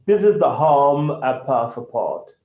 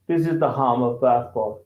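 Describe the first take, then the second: First: Slow, careful British accent. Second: Said in the usual way. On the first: Shown as a demonstration. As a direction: say it the British way, lower and slower. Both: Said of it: "so that's British".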